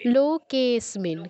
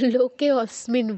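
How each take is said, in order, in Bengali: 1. শব্দটা 'lo-ke' থেকে সরাসরি 'smin'-এ চলে যায়। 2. 'smin'-এর আগে একটা আলাদা 'a' স্বরধ্বনি বলা হয়।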